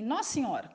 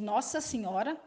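First: "Nossa Senhora" clipped to "nossiora"; reduced Nossa Senhora. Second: Each syllable of "Nossa Senhora" said clearly; full Nossa Senhora. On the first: Teacher showing students the spoken "Nossa Senhora". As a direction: drop syllables from "Nossa Senhora". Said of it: "aí você tem Nossa Senhora". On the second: Teacher giving students the full "Nossa Senhora". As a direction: say "Nossa Senhora" slowly, both words whole. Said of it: "você tem de Nossa Senhora". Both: Shown as a demonstration.

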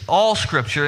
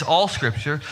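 First: "all Scripture" with ALL punched and falling; stress on all. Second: Said in the usual way. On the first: Shown as a demonstration. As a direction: hit the word "all" in "all Scripture". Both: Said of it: "and that's a key phrase".

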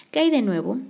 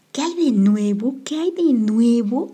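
First: Said in the usual way. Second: Higher, louder, slow sarcastic echo; mocking repeat. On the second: A narrator's reading. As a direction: throw the question back scornfully. H mocks the question.

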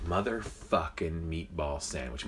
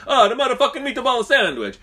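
First: Said in the usual way. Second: High, loud cartoon Italian; mock Italian accent. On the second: Joke teller redoing the Italian worker's line, mock Italian accent. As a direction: exclaim it in a hammed-up Italian accent. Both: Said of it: "But probably said, like".

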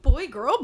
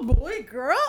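First: A different, louder show-host voice; put-on voice. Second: Louder announcer read of the title; put-on voice. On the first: Podcaster announcing the episode title, in a put-on voice. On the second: Podcaster repeating the title, in a put-on voice. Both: Shown as a demonstration. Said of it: "trying out a different voice".

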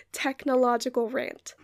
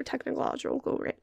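First: Said in the usual way. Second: Tongue-tied on "technological", extra muddled syllables at the end; tripped-over word. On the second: Real, not acted. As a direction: stumble through "technological", garbling its ending. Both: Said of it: "I can't say that word".

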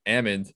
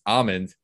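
First: First ALMOND as AM-und, like salmon; almond with short A. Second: Second ALMOND as AH-mund, open vowel; almond pronounced AH-mund. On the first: Host retelling Scott's rant, almond as AM-und. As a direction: say almond with the A of 'am'. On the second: Host quoting the disputed version in Scott's rant, almond as AH-mund. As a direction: say almond with a broad AH, silent L. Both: Shown as a demonstration. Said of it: "be pronounced almond".

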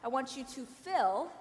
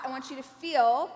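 First: "fill" said with a short i, fixing the earlier slip; corrected word. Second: "feel" said with a long ee sound, as a slip for fill; accidental slip of the tongue. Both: Real, not acted. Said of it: "oh, sorry, that was, an accident just popped out".

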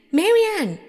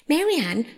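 First: High, loud summons; raised, demanding call; insistent calling out. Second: Higher-pitched call for a servant; mildly impatient call. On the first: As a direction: call the servant sharply, much higher and louder. Rabbit calls maid a second time. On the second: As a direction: call out, first try. Rabbit calls from outside for maid. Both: A narrator's reading.

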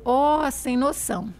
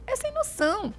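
First: Slow, drawn-out "Ó, sem noção"; relaxed demo of mineiro slang; slow mineiro expression. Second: "É sem noção" said much higher, stressing "É"; exaggerated mineiro emphasis; emphatic demo. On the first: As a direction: stretch each word like a mineira. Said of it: "vai dizer". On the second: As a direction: pitch "É sem noção" up high. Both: Shown as a demonstration.

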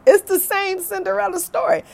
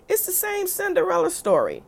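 First: Higher and louder, laughing through it. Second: Pitched way up, eager declaration; excited exclaim. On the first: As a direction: crack up as you repeat it. Repeated punchline with laugh. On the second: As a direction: announce it like a revelation. Punchline about stepmother. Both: Real, not acted.

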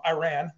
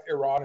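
First: Iran said the American way, EYE-ran with a flat a; American pronunciation. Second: Iran said the Persian way, ee-RAHN with a long open a; Persian pronunciation. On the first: Guest showing how Americans say Iran. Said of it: "if you're from America". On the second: Guest showing how Iranians say Iran. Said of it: "if you're from Iran". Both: Shown as a demonstration.

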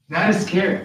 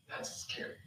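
First: Said in the usual way. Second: Barely audible, voiceless whisper; hushed whisper. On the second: Real, not acted. Preacher to congregation on Allah's response, hushed whisper. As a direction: whisper it in dread. Awed reaction before repeating it aloud.

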